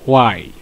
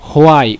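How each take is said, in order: First: The word starts with a w sound. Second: The word starts with an h sound. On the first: The speaker calls it right. "এটা হোয়াই না, এটা হচ্ছে ওয়াই" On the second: The speaker calls it wrong. "অনেকে এটা হোয়াই উচ্চারণ করে, হোয়াই অর্থাৎ বাংলায় হ উচ্চারণ করে"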